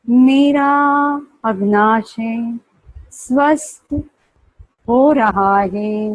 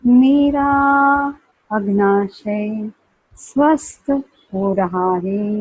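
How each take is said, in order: First: It is spoken at normal volume. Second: It is spoken softly and low.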